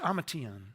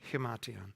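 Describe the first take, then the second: First: The word has neither an H nor R. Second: The word begins with an H sound. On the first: The speaker calls it wrong. "It's not an ima" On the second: The speaker calls it right. "It's like an H"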